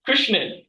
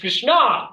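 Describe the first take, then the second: First: The name ends with an 'n' sound. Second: The name ends on a vowel, no 'n'. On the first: "that's how we say it in Tamil" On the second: "There's no in in the end"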